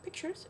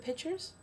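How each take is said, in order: First: It has a clear k sound before the ch. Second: It sounds like pitchers, with no k sound. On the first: The speaker calls it right. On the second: The speaker calls it wrong.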